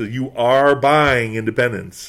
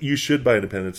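First: "are" drawn out slowly as an order; stress on ARE. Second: Said in the usual way. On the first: Retold or imitated. Skaters telling the newcomer there is no choice, stress on "are". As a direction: lean hard on "are", slowing down. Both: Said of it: "it wasn't even like".

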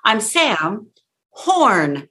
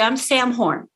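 First: "I'm Sam", pause, "Horn" punched and drawn out. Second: "I'm Sam Horn" run together without pause; no impact. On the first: Coach showing the fix, pause then drawn-out "Horn". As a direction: separate "Horn" and land it firmly. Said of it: "if I go horn like that". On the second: Coach showing the mistake, "Sam Horn" run together without impact. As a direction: throw away "Sam Horn" in one falling run. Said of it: "Gone, no impact". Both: Shown as a demonstration.

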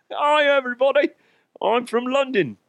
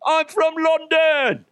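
First: High-pitched mock London accent; attempted London accent. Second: Put-on very high, slow, overblown London accent; attempted London accent. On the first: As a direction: greet in a badly faked London accent. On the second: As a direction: belt out a badly faked London accent, drawn out. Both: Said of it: "nail that damn accent".

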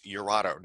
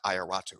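First: Iurato said "your-AH-to"; correct pronunciation. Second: Ioratu said "eye-or-AH-too"; wrong pronunciation. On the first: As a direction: say Iurato starting with a "your" sound. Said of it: "spell it the way it sounds". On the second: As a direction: say Ioratu starting with a long "eye". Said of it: "not Ioratu". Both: Shown as a demonstration.

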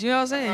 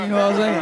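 First: Said in the usual way. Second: A lower, tougher take; mock tough-guy seriousness; lowered serious voice. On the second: Shown as a demonstration. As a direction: drop the voice, try to sound serious. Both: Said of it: "the only thing I can do is just lower my voice".

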